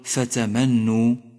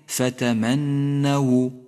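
First: The n sound is short and single. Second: The n sound is held long and doubled. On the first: The speaker calls it wrong. "فلا تقل فتمنوا" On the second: The speaker calls it right. "ولكن فتمنوا. النون مشددة ومفتوحة"

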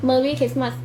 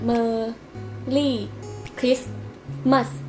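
First: It is mumbled with barely moving lips. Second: It is clearly articulated with wide mouth movement. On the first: The speaker calls it wrong. "นาชีจะขยับปากแค่เนี้ย" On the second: The speaker calls it right. "ออกเสียงชัดๆปากขยับเยอะๆ"

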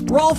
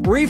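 First: It is said with an 'o' vowel and an l. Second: It is said with a long 'ee' vowel. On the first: "Rolf has to Ralph" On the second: "Reef has to Ralph"

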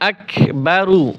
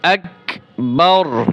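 First: The word ends with a short u vowel. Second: The word ends on a heavy, voiceless-final r. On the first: The reading continues without stopping. "এখানে মূলত ছিল এক বা রু" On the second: The reader pauses at this word. "যখন ওয়াকফ করব তখন এক বাউর বাউর, এবং রটা মোটা করব"

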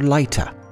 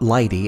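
First: The name is said with a Norwegian pronunciation. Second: The name is said with an American pronunciation. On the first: The speaker calls it right. "but rather" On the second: The speaker calls it wrong. "as we pronounce it in America"

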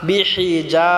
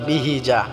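First: The h sound is pressed from the throat. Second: The h sound is a plain, light h. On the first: The speaker calls it right. "হাটা আমরা গলায় চাপ দিয়ে উচ্চারণ করব" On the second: The speaker calls it wrong. "অনেকে আছি আমরা বিহিজা বলি"

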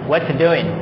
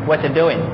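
Both takes have the same delivery.

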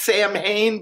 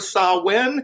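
First: The name is pronounced the way it is spelled. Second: The name is pronounced unlike its spelling. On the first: The speaker calls it wrong. "It looks like it might be pronounced Samhain" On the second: The speaker calls it right. "but it's actually Samhain"

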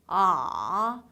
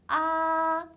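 First: The pitch dips down, then bounces slightly up. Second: The pitch stays high and level. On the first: "내려가는 느낌만 좀 강하게 주신다고" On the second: "높은 음에서 쭉 이어지는 음이에요"

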